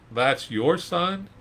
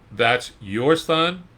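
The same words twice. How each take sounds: First: High, slow disbelieving question; incredulous folks. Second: Incredulous neighbors. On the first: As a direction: gawk at the old father. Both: Retold or imitated. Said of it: "can you hear these folks".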